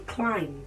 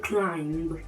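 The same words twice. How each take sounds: First: The final b sound is silent. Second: The final b sound is pronounced. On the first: The speaker calls it right. "the b sound automatically becomes silent" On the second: The speaker calls it wrong. "You don't say"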